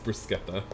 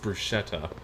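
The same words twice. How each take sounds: First: The word has the original Italian pronunciation. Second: The word has an anglicized English pronunciation. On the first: The speaker calls it right. "no, no, it's bruschetta" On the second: The speaker calls it wrong. "the term has been anglicized and is sometimes pronounced as bruschetta"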